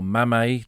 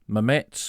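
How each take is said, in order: First: The name ends without a ts sound. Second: The name ends with a ts sound. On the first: This is how some locals say it. "or Mamet to the locals" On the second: This is how the troops said it. "it was always Mametz"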